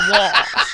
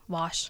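First: It is drawn out in a Southern accent. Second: It is said short, without the Southern drawl.

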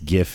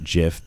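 First: It begins with a hard G sound. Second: It begins with a soft J-like sound.

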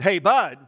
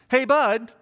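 First: It sounds forceful and emphatic. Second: It sounds like a question is coming.

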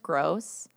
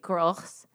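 First: The name is said with an English pronunciation. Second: The name is said with a German pronunciation. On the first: The speaker calls it wrong. "My last name is" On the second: The speaker calls it right. "but said properly would be"

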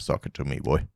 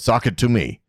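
First: It is said in a put-on daddy voice. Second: It is said in his normal voice.

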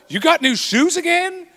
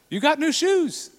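First: It sounds disapproving and critical. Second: It sounds pleased and positive.

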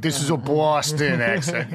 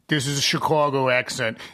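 First: It is said in a Boston accent. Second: It is said in a flat Chicago accent.

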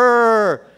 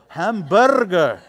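First: It is said in the speaker's plain voice. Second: It is said in a put-on foreign accent.

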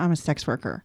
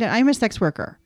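First: It sounds reluctant and fed up. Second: It sounds excited and enthusiastic.

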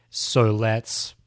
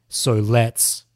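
No difference in how they are said.

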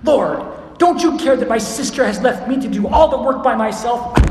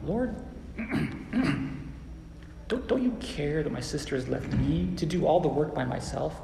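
First: The voice sounds upset, like a whining tantrum. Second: The voice sounds calm, like a sincere request. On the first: The asker is upset and complaining. "there's the tantrum-y standpoint" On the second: The asker is making a sincere request. "Or maybe it's like this"

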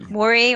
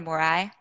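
First: The word ends with an 'ee' sound. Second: The word ends with an 'eye' sound. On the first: "Tyler is proposing a pronunciation like Mori, and we are endorsing this pronunciation" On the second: "Morai is the technical term"

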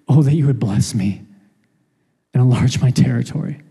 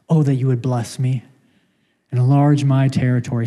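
First: The tone sounds humble and pleading. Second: The tone sounds arrogant and demanding. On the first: The speaker humbly asks for a blessing. "compared to" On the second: The speaker feels entitled to more. "Sounds really arrogant"

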